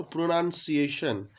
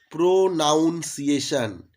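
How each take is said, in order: First: "প্রোনাউন্সিয়েশন" run together as one word, pro-nun-ciation; joined-up pronunciation. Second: "প্রোনাউন্সিয়েশন" split into pro, noun, ciation; broken-up pronunciation. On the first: Teacher giving the proper whole word, "প্রোনাউন্সিয়েশন" joined as pronunciation. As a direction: say "প্রোনাউন্সিয়েশন" smoothly, with a short "nun" in place of "noun". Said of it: "যখন একসাথে ঠিকঠাক উচ্চারণ হয়".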